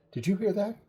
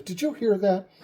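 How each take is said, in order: First: High-pitched, startled question; alarmed question. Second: High, more forceful question; mock-urgent, insisting on an answer; insistent repeat. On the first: Retold or imitated. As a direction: ask it suddenly alert, pitched up high. Kenny startled by noise, alarmed question. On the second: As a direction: press the question, pitched up high. Kenny insists on having heard it.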